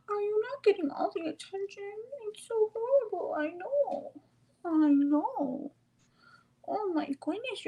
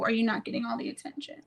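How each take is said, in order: First: Very high cooing, pitying the pet. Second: Said in the usual way. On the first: Real, not acted. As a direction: coo up high, mock sympathy for a pup. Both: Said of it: "talk like that to me".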